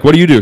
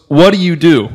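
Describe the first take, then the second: First: Said in the usual way. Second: Imitated Russian accent, pitched up; mock Russian-accented woman, higher voice. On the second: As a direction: put on a strong Russian accent for a retold question. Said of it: "very strong Russian accent".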